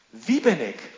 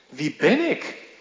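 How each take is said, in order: First: The stress falls on the word wie. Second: The stress falls on the word ben. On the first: It asks about one's identity. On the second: It asks what one is worth.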